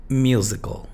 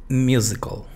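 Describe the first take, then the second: No difference in how they are said.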